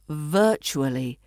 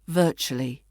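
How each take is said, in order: First: All the syllables are said in full. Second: The word is shortened, with syllables squeezed together.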